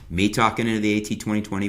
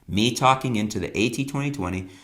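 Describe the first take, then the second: First: The voice has less room echo and reverb. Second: The voice has more room echo and reverb. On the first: "This is the sound now with the audio treatment" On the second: "just the bare room, no audio treatment"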